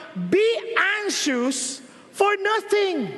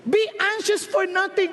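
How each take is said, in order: First: Slow stress on "for"; slow scripture reading. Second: Said in the usual way. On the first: Shown as a demonstration. Preacher reading the verse to the congregation, slow and weighty. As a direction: draw out "Be anxious for nothing" with weight on "for". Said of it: "sabi ng Lord". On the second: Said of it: "Sabi ng Diyos".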